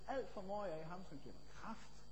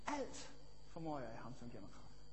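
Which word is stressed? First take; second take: kraft; alt. First: The word kraft carries the stress. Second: The word alt carries the stress. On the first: "jeg kunne betone kraften og sige" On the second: "For eksempel, alt"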